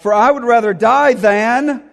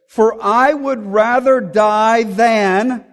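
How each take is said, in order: First: Higher and louder, punching "die", then cut off; emphatic abrupt line. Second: Slow, drawn out, higher and louder, cut off after "than"; abrupt broken-off line. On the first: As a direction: hit "die" hard and stop dead after "than". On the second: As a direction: let "For I would rather die than" hang unfinished, slowly. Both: Shown as a demonstration. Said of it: "This is an abrupt ending".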